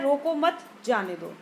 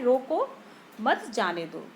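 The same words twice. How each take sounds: First: There is a pause after 'roko mat'. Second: There is a pause after 'roko'.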